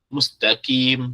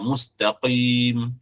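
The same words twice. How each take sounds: First: It uses a plain front 'k' sound. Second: It uses a deep throat 'q' sound. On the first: The speaker calls it wrong. "mustaqim dengan kaf. Mustaqim, salah" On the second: The speaker calls it right. "mustaqim dengan qaf"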